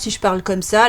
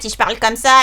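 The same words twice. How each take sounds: First: It is a deep, big-bad-wolf voice. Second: It is a raspy, witch-like voice.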